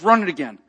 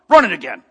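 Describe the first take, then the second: First: Said in the usual way. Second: Louder, gruff order with a hint of a tough soldier. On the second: Soldier telling the cashier to run the card, gruff and louder. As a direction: bark it like a tough soldier, a light imitation. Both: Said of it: "Real gruff".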